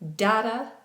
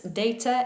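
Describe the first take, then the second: First: It is said with an American pronunciation. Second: It is said with a British pronunciation. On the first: "sometimes in American English" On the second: "in British English"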